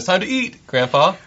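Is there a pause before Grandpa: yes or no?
yes. There is a pause before Grandpa.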